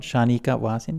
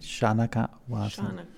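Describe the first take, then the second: First: The second syllable has an 'ee' vowel. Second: The second syllable has an 'ah' vowel. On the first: The speaker calls it wrong. "Not Shanika Vasin" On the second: The speaker calls it right.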